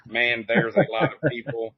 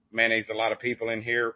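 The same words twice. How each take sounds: First: "Man, there's" as separate words, a bit louder; spelled-out enunciation. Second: "man, there's" run together into Mayonnaise. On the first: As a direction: pull Man and there's apart clearly. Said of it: "which is". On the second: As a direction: slur it in cursive so it sounds like Mayonnaise. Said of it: "I say is a redneck word". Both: Shown as a demonstration.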